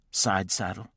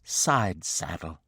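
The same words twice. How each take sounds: First: "Side saddle?" with a rising, disbelieving lift; incredulous question. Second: "Side saddle" slow and deliberate, each syllable crisp; distinctly. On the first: Wife echoing husband's order, rising in disbelief. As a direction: throw "Side saddle?" back as a shocked question. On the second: Wife answering husband's demand, slow and distinct. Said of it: "she said distinctly". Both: Acted.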